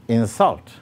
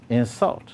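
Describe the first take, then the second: No difference in how they are said.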